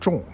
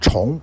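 First: It is read as in the word for heavy. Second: It is read as in the word for repeat. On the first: The speaker calls it wrong. "不念重" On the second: The speaker calls it right. "这里念重"

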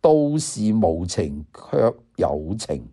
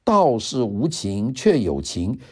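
First: It is read in Cantonese. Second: It is read in Mandarin.

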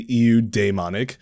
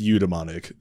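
First: It is sounded out the way it is spelled. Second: It is said with its accepted pronunciation. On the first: The speaker calls it wrong. "if you asked for the phonetic pronunciation, I would say EU daemonic" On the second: The speaker calls it right. "But it is pronounced eudaimonic"

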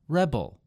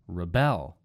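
First: The stress falls on the first syllable. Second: The stress falls on the second syllable. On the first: It is a noun. "In the first word, it was on the first syllable" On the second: It is a verb. "in the second word, I moved the emphasis to the second syllable"

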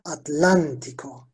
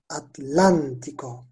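First: The stress is on the second syllable, lan. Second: The stress is on the second syllable, lan.

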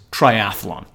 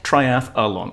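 First: It has three syllables with no added vowel. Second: It has an extra vowel sound before 'lon'. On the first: The speaker calls it right. "it's triathlon" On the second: The speaker calls it wrong. "putting the extra vowel sound in there"

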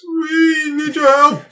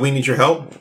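First: It is said like the Galaxy Quest aliens. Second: It is said in a normal voice.

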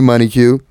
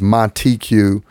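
First: The T in the name is softened away. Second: The T in the name is clearly pronounced. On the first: The speaker calls it wrong. "they make the soft T, so they call me" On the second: The speaker calls it right. "My name is Monty Q"

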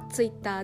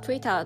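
First: It is said with Japanese katakana pronunciation. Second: It is said with English pronunciation. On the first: "日本語はTwitter です" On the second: "英語だと確かTwitter という発音だったと思います"

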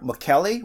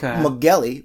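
First: The middle consonant is a hard K sound. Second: The middle consonant is a hard G sound. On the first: "Mokele with a K" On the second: "Mugeli with a G"

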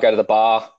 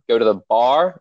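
First: Australian accent, with the r sound dropped. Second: American accent, with the r sound pronounced. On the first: "The secret for Australians to do an American accent is that we don't pronounce the letter R" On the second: "Whereas you guys"

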